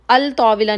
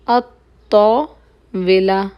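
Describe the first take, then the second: First: The L of the article is clearly pronounced. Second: The L merges into a doubled T sound. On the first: The speaker calls it wrong. "नहीं होगा" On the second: The speaker calls it right. "ये हरूफुल शमसिया में से"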